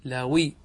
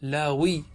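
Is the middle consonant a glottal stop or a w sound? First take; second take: w sound; w sound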